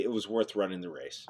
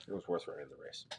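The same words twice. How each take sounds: First: Softer, sincere consolation; consoling. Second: The line again, much softer, almost to himself; quiet echo. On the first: Host consoling a viewer whose racer lost, softly. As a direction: let him down gently. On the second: Host echoing his consolation to the losing viewer, barely audible. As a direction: repeat it under your breath. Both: Real, not acted.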